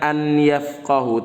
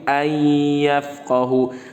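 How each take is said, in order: First: The n sound is pronounced clearly before y. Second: The n sound merges into the following y. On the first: The speaker calls it wrong. "bukan an yafqahu" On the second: The speaker calls it right. "tapi ayyafqahu"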